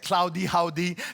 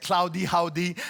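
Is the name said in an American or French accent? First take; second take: American; American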